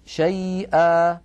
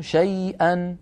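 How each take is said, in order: First: شيئا as "shay'a", long final a, no nun; "shay'a" without nunation; pausal alif. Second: شيئا as "shay'an", clear final n; "shay'an" in running speech; connected nunation. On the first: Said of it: "أما في الوقف شيئا". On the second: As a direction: finish شيئا on a sounded n. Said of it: "وفي الوصل تكون شيئا". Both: Shown as a demonstration.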